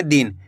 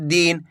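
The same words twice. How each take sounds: First: दिन with a brief, short i; less stretched. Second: दिन with the i pulled long; stretched vowel. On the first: Teacher contrasting the short matra, less stretched दिन. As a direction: keep the vowel in दिन short. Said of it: "कम खींच के पढ़ेंगे". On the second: Teacher contrasting the long matra, stretched vowel in दिन. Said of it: "खींच के पढ़ा जा रहा है". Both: Shown as a demonstration.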